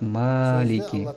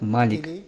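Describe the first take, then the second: First: The first vowel is held long. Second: The first vowel is kept short. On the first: "удлиняя букву «А»" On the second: "не удлиняя букву «А»"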